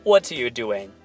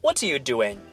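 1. Doing 要重读；what are you 又快又弱。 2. Doing 要重读；what are you 又快又弱。

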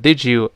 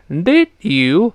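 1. d 和 y 融合成 j 音。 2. d 和 y 是分开读的。

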